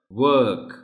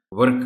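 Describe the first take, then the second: First: ورک said as "wuk", without any R; ورک with a rounded W and silent R. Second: ورک said as "vurk", R pronounced; ورک with an audible R before the K; wrong, R sounded. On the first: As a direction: drop the R entirely in ورک. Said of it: "آر silent ہے". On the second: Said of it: "ورک نہیں بولا جا سکتا". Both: Shown as a demonstration.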